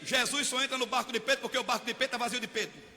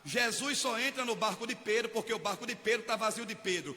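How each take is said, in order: First: The sentence is spoken at a fast pace. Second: The sentence is spoken at a slower pace. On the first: "Falei rápido" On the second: "vou falar mais devagar"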